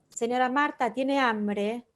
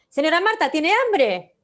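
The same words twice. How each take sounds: First: It is said in a calm, relaxed tone. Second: It is said in an agitated, tense tone.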